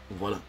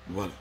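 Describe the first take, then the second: No difference in how they are said.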